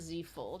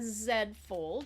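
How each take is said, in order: First: The letter is said as 'zee', American style. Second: The letter is said as 'zed', Canadian style.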